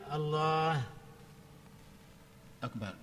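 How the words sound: A short pause separates the two words. "Atau wakaf pendek"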